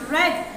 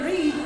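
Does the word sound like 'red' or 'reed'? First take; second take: red; reed. First: The word is said with the vowel of 'red'. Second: The word is said with the vowel of 'reed'. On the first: It is the past form of the verb. "in the second and third form we will pronounce it read" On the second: It is the present form of the verb. "In the first form we say read"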